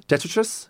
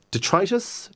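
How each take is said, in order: First: "Detritus" as DET-ri-tus, higher and questioning. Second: "detritus" slowly as de-TRY-tus, questioning. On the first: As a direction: stress the first syllable of "Detritus". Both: Shown as a demonstration. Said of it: "Detri-, detritus".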